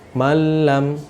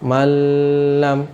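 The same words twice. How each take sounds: First: The merged sound passes quickly without holding. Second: The merged sound is held with nasal lengthening. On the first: The speaker calls it right. "tapi malam langsung seperti itu" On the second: The speaker calls it wrong. "jangan sampai ditahan, jangan sampai malam"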